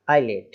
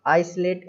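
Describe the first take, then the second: First: आइलेट with silent s, "eye-let"; correct pronunciation. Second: आइसोलेट with the s sounded, "ice-let"; wrong pronunciation. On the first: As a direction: model आइलेट lower, with no s sound. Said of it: "ऐसा, आइलेट". (सही आइलेट, स silent) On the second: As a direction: read आइसोलेट by spelling, s pronounced. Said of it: "इस तरीके से नहीं बोलना है". (ग़लत आइसोलेट, स की आवाज़ के साथ) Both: Shown as a demonstration.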